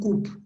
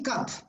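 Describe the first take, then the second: First: The vowel is a long oo sound. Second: The vowel is a short, open sound. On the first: The speaker calls it wrong. "no coop" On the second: The speaker calls it right. "It's a short sound"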